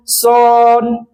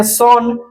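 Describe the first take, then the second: First: "सन" with a long held vowel; teacher drawing out "सन" to expose the अ sound; drawn-out vowel. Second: Said in the usual way. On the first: Shown as a demonstration. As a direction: stretch the vowel in the middle of "सन". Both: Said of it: "अ का pronunciation आ रहा है".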